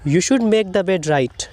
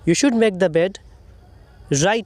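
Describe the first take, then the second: First: 'Right' runs straight on from 'bed' without pause. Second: A short pause comes after 'bed', before 'right'. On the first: The bed should be made correctly. The speaker calls it wrong. "तो पढ़ने का ये सही तरीका नहीं है, ज़रा सुनिए।" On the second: The bed should be made immediately after. The speaker calls it right. "आपको ऐसे पढ़ना है।"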